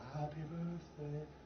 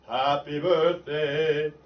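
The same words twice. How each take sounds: First: The voice is muffled and pulled back in throat. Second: The voice is bright, clear and ringing forward.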